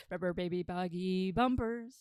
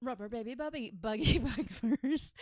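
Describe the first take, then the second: First: Said in the usual way. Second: Laughing stumble. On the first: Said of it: "retries the tongue twister". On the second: Real, not acted.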